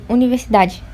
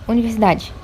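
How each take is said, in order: The two takes are said the same way.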